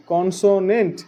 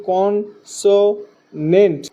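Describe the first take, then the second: First: Said in the usual way. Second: "কনসোনেন্ট" slowly as con, so, nent; teacher sounding out "কনসোনেন্ট" syllable by syllable; three-syllable split. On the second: Shown as a demonstration. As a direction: break "কনসোনেন্ট" into three beats with gaps. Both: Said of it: "তিনবারে উচ্চারণ করা হওয়ার কারণে".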